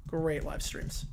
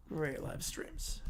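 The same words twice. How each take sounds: First: Said in the usual way. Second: Slow breathy whisper. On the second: Shown as a demonstration. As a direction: breathe it out slowly, almost no voice. Repeats his shout-out, then whispers it.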